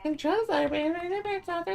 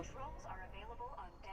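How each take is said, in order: First: High, loud announcer read; mock announcer. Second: Breathless whisper of the prompt; whispered readout. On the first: Gamer echoing the game prompt, mock announcer. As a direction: announce it like a cheesy system voice. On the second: Acted. Gamer reading the game prompt, whispered. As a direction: breathe the line out with no voice.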